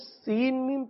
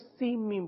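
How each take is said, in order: First: The n sound is heard before the m. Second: The n sound merges into the m. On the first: The speaker calls it wrong. "سین میم نہیں پڑھیں گے، یعنی سین کے آخر میں جو نون کی آواز ہے وہ نہیں آئے گی" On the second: The speaker calls it right. "بلکہ سیم پڑھیں گے"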